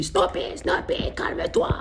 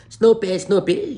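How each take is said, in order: First: Slow mock whisper instead of a yell; whispered scolding. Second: Loud high call of the dog's name. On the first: Friend scolds his dog, comically whispered. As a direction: whisper the dog's name slowly, as if telling it off. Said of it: "il commence à lui crier dessus". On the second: Retold or imitated. Friend calling dog again.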